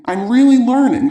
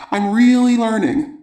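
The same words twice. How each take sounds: First: High, emphatic burst of joy; jubilant, pitched well up; elated. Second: Higher-pitched, pleased discovery; proud, happy exclamation; delighted realization. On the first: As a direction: exclaim it with mounting delight. Repeats it with growing joy. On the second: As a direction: celebrate your progress, voice lifted. Letter writer celebrates her progress. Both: A narrator's reading.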